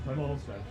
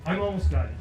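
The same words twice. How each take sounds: First: Much softer repeat. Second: Said in the usual way. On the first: Real, not acted. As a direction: drop to a near-hushed aside.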